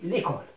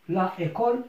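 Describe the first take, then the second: First: The a is dropped, l joins école. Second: The a of la is said before école. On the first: The speaker calls it right. "on a élidé la première voyelle" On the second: The speaker calls it wrong. "il y a un peu de difficulté dans la prononciation"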